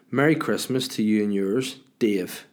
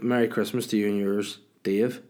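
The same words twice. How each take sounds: First: "Merry Christmas to you and yours," read with a marked break before "Dave" and a falling "Dave"; pause at the comma. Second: Said in the usual way. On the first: Shown as a demonstration. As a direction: read the comma aloud as a stiff pause, then drop on "Dave". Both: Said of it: "that's a weird place for a comma".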